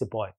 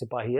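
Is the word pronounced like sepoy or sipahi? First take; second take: sepoy; sipahi. First: It is said with two syllables, like sepoy. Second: It is said with three syllables, like sipahi. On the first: This is how the British said the word. "the British pronounce Sipahi as Sipahi" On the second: This is the original local form of the word. "the British pronounce Sipahi as"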